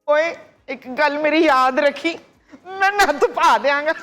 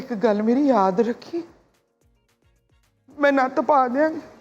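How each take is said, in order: First: It is said in a happy tone. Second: It is said in a sad tone.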